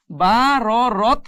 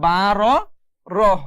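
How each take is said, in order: First: বা র রত closed on a hard T; wrong T ending. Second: বা র রহ closed on an H instead of T; breathed H ending. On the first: Teacher warns learners off this reading, T ending on রত. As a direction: end রত with a clear T stop. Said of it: "পড়া যাবে না". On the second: Teacher models the stop for learners, H ending on রহ. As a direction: let রহ end in an audible H. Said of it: "এভাবে পড়তে হবে". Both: Shown as a demonstration.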